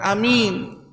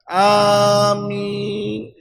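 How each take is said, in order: First: The first vowel is kept short. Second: The first vowel is drawn out long. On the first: The speaker calls it wrong. "Bukan amin" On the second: The speaker calls it right. "Hamzahnya dipanjang"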